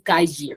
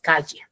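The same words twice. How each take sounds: First: It is said in a Lima accent. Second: It is said in a provincial Peruvian accent. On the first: "los de Lima dicen" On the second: "los de provincia decimos"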